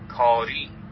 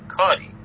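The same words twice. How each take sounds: First: The stress is on the last syllable. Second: The stress is on the first syllable. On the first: "روی زی میذارم نبرشو" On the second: "روی کا"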